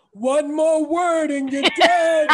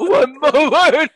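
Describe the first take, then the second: First: Slow, loud, breathy threat; breathy menacing voice. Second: Slow breathy echo through laughter; breathy voice imitation. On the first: Retold or imitated. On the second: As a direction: mimic the breathy threat. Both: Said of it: "it was that breathy voice".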